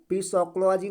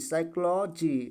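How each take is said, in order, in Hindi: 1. इस शब्द की शुरुआत बोले जाने वाले p से होती है। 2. इस शब्द की शुरुआत s की आवाज़ से होती है। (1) "पी सोक्लॉजी नहीं पढ़ा जाएगा" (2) "पी साइलेंट होता है"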